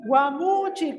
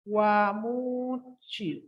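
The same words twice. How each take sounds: First: Guamuchi with the weight on the U, said clearly; stress on the U. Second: Guamuchi drawn out very slowly, syllable by syllable; slow spelling demo. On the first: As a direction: lean on the U in Guamuchi. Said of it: "con acento en la U". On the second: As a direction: stretch out Guamuchi slowly so they can write it. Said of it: "con G". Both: Shown as a demonstration.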